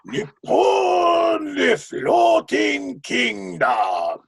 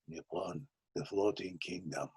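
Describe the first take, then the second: First: It is declaimed in a grand, presentational way. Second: It is spoken in a bittersweet, sad way. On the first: It opens a show. "the beginning of Pacific Overtures is very presentational" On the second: It closes a show on a sorrowful note. "where it's very bittersweet and sad"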